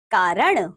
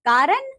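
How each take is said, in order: First: Said in the usual way. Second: "कारण" with a dental n, "kaaran"; wrong pronunciation. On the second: Shown as a demonstration. Teacher showing pupils the error, "कारण" mispronounced with dental n. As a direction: end "कारण" on a plain rising n. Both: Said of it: "अन्य अशुद्धियां कुछ".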